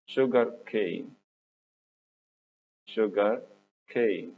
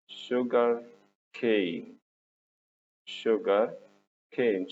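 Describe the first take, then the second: No difference in how they are said.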